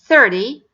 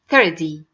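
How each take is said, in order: First: The middle consonant is a very light D. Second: The middle consonant is a heavy D. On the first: The speaker calls it right. "Make it very light D instead" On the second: The speaker calls it wrong. "Don't make it very heavy D"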